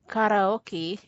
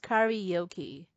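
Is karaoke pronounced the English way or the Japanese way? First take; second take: Japanese; English. First: It is pronounced the Japanese way. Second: It is pronounced the English way. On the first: "they say karaoke" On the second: "in English, this is pronounced as karaoke"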